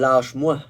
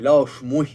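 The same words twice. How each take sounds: First: The word 'moi' is pronounced in a casual way. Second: The word 'moi' is pronounced carefully and fully. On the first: The speaker calls it wrong. "Pas lâche-moi" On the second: The speaker calls it right. "Je parle bien le moi"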